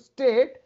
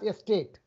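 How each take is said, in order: First: The word begins directly with the s sound. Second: The word begins with an added e vowel. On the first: "instead of saying state" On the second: "they have to pronounce it as estate"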